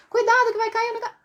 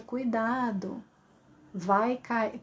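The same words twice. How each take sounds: First: High, rapid urgent cry; rushed, high-pitched alarm; fast emergency warning. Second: Slow, leisurely, softened warning; drawn-out warning with no urgency; uselessly slow warning. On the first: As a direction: blurt a warning before it is too late. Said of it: "tem que falar rápido". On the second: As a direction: take your time over an urgent warning. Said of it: "não dá pra falar devagar". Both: Shown as a demonstration.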